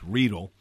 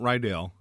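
First: It is not pronounced like the name Rydell. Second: It is pronounced like the name Rydell. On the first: The speaker calls it right. "It's Riedel" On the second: The speaker calls it wrong. "It is not Riedel"

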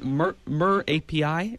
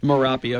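First: The end is said as three separate letters. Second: The end is said as one blended word. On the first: The speaker calls it wrong. "is that how you pronounce it?" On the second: The speaker calls it right. "It's actually Merapi"

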